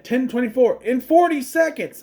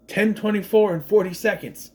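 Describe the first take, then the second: First: Mock girl's line with a higher, louder pitch; misheard quote. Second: Said in the usual way. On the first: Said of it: "I always thought she said".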